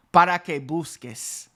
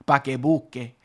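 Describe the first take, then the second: First: "para que busques" with para and the final S in full; full proper form. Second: "pa que busque", para cut to pa, final S dropped; clipped casual form. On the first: Teacher contrasting the full standard form. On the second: Teacher showing the shortened street form. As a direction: clip it the casual way. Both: Shown as a demonstration. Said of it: "I said pa que busque".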